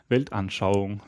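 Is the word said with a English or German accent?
German. It is said with a native German accent.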